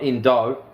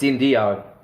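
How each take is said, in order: First: The name has no 'ee' sound before 'o'. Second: The name has an extra 'ee' sound before 'o'. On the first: The speaker calls it wrong. "not Indo" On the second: The speaker calls it right. "It's Indio"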